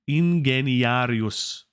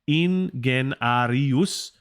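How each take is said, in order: First: A vowel is sounded after 'gen'. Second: The vowel after 'gen' is left out. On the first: The speaker calls it right. "So you should say Ingeniarius" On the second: The speaker calls it wrong. "you skip the E after the gen"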